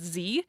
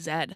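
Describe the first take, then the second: First: The letter is pronounced zee. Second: The letter is pronounced zed. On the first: This is how the speaker's generation grew up saying it. "we always said Z" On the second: This is the official Canadian way of saying it. "oh, no, it's actually Z"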